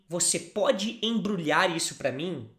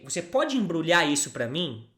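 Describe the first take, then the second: First: It is said slowly and carefully. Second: It is said at a normal speaking speed.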